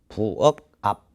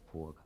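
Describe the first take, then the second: First: The words are said separately with a break. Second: The k sound links into the next word. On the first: "대표음으로 먼저 바뀌어요" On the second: "빨리 발음하면 연음 현상이 기억이 이응 자리로 가는 거야"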